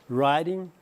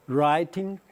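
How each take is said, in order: No difference in how they are said.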